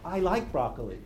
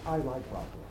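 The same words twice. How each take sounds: First: It sounds fearful and anxious. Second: It sounds calm and matter-of-fact.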